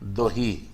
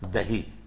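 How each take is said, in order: First: The first vowel is a rounded back vowel. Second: The first vowel is a plain open 'a'. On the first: This is the local regional form. "हम लोग वहां है दोही" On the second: This is the standard form. "हम लोग बोलते हैं दही"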